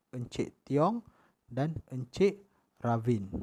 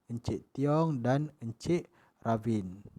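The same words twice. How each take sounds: Both takes have the same delivery.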